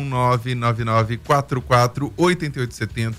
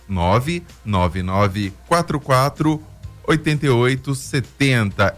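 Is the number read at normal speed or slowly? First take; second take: normal; slowly. First: The number is read at normal speed. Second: The number is read more slowly.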